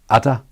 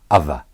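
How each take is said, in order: First: The middle consonant is a d sound. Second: The middle consonant is a voiced th sound. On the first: "the old way with a d sound first" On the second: "the new way with the voiced th"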